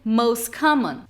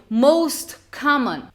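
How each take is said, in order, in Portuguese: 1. O T no final de most é omitido. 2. O T no final de most é pronunciado.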